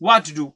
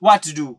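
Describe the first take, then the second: The two takes are said the same way.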